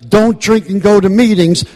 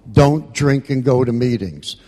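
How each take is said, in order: First: Raised high and loud, pleading; preacher-like shouted slogan; loud passionate repeat. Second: Said in the usual way. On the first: Real, not acted. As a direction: hammer the slogan with full force.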